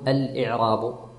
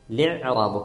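First: The word begins with a glottal stop. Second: The word begins with li, no glottal stop. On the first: The speaker calls it wrong. "ما نقول الإعراب" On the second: The speaker calls it right. "كأن الهمزة الأولى غير موجودة والهمزة الثانية كذلك من أجل الوزن"

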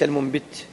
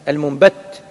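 First: The vowel after the b is i. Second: The vowel after the b is a. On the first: The speaker calls it wrong. "وليس المنبت" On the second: The speaker calls it right. "المنبت على خلاف القياس"

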